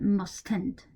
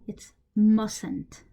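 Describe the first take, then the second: First: The t after the s is clearly pronounced. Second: The t after the s is not pronounced. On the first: The speaker calls it wrong. "you don't say uh" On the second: The speaker calls it right. "This T is silent"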